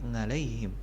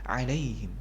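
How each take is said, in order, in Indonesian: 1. Kata ini diawali dengan bunyi sengau 'ng'. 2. Kata ini diawali dengan bunyi tenggorokan yang tegang. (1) "jangan sampai menjadi ngalaihim" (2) "Alaihim gitu"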